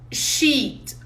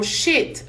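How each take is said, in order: First: "sheet" with a long, stretched ee vowel. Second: "shit" with a short, clipped i; short i vowel. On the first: Teacher showing students the long ee of "sheet". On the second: Teacher contrasting the short i of "shit" for students. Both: Shown as a demonstration. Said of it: "vocês notam na minha fala que é diferente".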